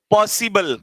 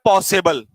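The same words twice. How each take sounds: First: पॉसिबल with a clear short "इ" in the middle, "पॉसि-बल"; correct pronunciation. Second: पॉसिबल said as "पॉसेबल" with a loose middle vowel; common mispronunciation. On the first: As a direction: say पॉसिबल properly, crisp "सि" in the middle. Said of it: "हाँ, क्या बोलना है?". (पॉसिबल का सही उच्चारण, बीच में साफ "सि") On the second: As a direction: say पॉसिबल the way many people wrongly do, "पॉसेबल". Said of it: "कई लोग कहते हैं पॉसिबल / क्या बोलना है?". (पॉसिबल का आम गलत उच्चारण, "पॉसेबल") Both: Shown as a demonstration.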